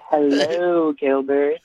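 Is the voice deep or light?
deep. The voice is deep, with added bass. The speaker calls it right. "You got to put some bass in your voice"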